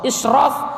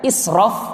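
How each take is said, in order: First: The middle consonant is a 'sh' sound. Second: The middle consonant is a plain 's' sound. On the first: It means being noble. "Israf artinya mulia" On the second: It means going beyond limits. "israf artinya melampaui batas"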